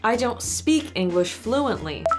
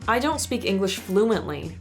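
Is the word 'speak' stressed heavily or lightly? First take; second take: heavily; lightly. First: The word speak is stressed very heavily. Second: The word speak is stressed only lightly. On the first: The speaker calls it wrong. "I overemphasized the word speak" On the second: The speaker calls it right. "I'm gonna emphasize it a bit less now"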